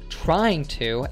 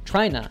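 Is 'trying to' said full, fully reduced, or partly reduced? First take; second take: full; fully reduced. First: Both words are said fully, with the g sound. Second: The two words merge into one short word. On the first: "He says trying to as trina" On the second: "reduced even further in fast speech by saying just tryna"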